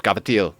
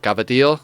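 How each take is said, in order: First: Cavatello said again, trying harder for the Italian sound; Italian-style Cavatello, second try; Italian accent retry. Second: Cavatello said the Italian way; Italian-style cavatello; Italian accent. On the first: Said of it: "I'm still not doing it well enough". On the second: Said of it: "With the Italian accent". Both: Shown as a demonstration.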